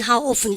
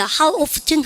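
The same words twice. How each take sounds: First: "often" said as "off-en"; silent T in often. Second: "often" said as "off-ten"; sounded T in often. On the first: Teacher compares both accepted forms, this "often" without its T. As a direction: leave the T out of "often". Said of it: "트 발음 묵음하시고". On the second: Teacher compares both accepted forms, this "often" with its T. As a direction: pronounce the T in the middle of "often". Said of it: "트 발음 다 하는 원어민도 많아요". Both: Shown as a demonstration.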